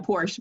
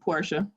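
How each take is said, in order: First: The name is said as one syllable. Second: The name is said as two syllables. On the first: This is the usual, everyday way people say it. The speaker calls it wrong. "we're used to saying Porsche" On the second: This is the proper way to say it. The speaker calls it right. "but it's Portia"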